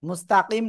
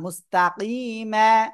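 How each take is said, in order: First: The word ends on the consonant m. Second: The word ends on a long a vowel. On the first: The speaker calls it wrong. "মুস্তাকিম না" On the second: The speaker calls it right.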